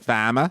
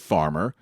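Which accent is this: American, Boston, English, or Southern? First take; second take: Boston; American. First: It is said in a Boston accent. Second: It is said in a general American accent.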